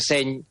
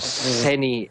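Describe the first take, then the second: First: It ends with a palatal ñ sound. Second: It ends with a plain n followed by ee. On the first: The speaker calls it right. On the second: The speaker calls it wrong.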